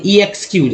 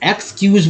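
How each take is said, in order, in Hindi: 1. शब्द से पहले एक अलग 'ee' ध्वनि आती है। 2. शब्द एक बार में बोला जाता है, कोई अतिरिक्त ध्वनि नहीं। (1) "ऐसा नहीं पढ़ेंगे" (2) "एक्सक्यूज पढ़ेंगे एक बार में"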